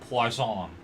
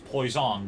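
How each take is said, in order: First: The first vowel sounds like 'wah'. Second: The first vowel sounds like 'oy'. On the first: The speaker calls it right. "the O I is pronounced as oa" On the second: The speaker calls it wrong. "I pronounced it as poison"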